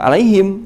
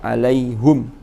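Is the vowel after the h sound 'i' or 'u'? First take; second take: i; u. First: The vowel after the h is 'i'. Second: The vowel after the h is 'u'. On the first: This is one school's reading of the word. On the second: This is another school's reading of the word.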